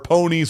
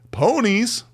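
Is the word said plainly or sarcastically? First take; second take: plainly; sarcastically. First: The word is said in a plain, neutral tone. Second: The word is said in a mocking, sarcastic tone. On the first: The word is meant literally. The speaker calls it wrong. "Hate to say ponies on the mic and not say it with sarcasm" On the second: The speaker does not truly mean it. The speaker calls it right. "like ponies"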